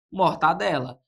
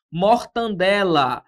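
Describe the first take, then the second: First: Mortadela said without any N; correct pronunciation. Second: Mortandela said slowly with the extra N; drawn-out, wrong mortandela with an N before the D; mispronounced word. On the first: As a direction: say mortadela cleanly, with no nasal N. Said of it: "Seria o modo correto". (mortadela pronunciada corretamente) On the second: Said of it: "Esse N aqui, ele não existe". (mortandela pronunciada errado, bem devagar) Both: Shown as a demonstration.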